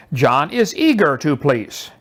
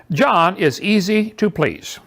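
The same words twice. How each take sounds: First: Slow, careful reading of eager; slow, to show one word changed; slow contrast. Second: Slow, careful reading of easy; slow example. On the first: A teacher reading the second sentence slowly. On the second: A teacher reading the first sentence slowly. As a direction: set it up slowly for the pair. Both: Shown as a demonstration. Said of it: "Consider the following pairs of sentences".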